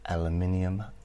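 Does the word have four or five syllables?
five. The word is said with five syllables. "the way English and Americans pronounce specific words"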